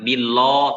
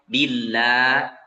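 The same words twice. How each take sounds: First: The l sound is thick and heavy. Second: The l sound is thin and light. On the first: The speaker calls it wrong. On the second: The speaker calls it right. "kita baca tipis"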